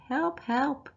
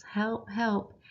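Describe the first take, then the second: First: Higher, light hammed-up cry for help; higher mock cry for help; mock scream for help. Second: Said in the usual way. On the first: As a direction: playfully call for Dad in a fright. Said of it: "I'm screaming for Dad". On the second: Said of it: "why do you think Mum yells".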